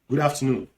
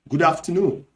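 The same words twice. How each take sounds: First: The final d of good is dropped. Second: The final d of good is pronounced. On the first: This is the Nigerian Pidgin form. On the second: This is the standard English form.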